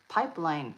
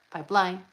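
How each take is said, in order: First: The stress is on the first syllable. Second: The stress is on the second syllable. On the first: This is the usual everyday pronunciation. "we think pipeline" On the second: This is how it is done in the song. "but it's pipeline. Line goes up"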